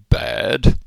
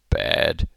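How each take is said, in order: First: The vowel is lower and open. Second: The vowel is raised, closer to 'bed'. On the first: This is the standard British pronunciation. "in standard British English, the word B-A-D would be pronounced bad" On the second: This is the New Zealand pronunciation. "In New Zealand English, it's pronounced bad... it's pronounced slightly higher"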